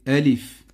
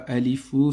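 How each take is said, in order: First: The word ends on the final consonant. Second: The word ends with an added 'ou' vowel. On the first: The speaker calls it right. "c'est alif" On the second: The speaker calls it wrong. "c'est pas alifou"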